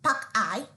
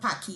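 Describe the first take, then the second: First: The name ends with an 'eye' sound. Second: The name ends with an 'ee' sound. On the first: The speaker calls it right. "It is pronounced as Pakai" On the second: The speaker calls it wrong.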